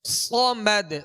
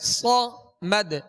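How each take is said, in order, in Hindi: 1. पहला व्यंजन भारी और ज़ोरदार है। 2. पहला व्यंजन भारी और ज़ोरदार है।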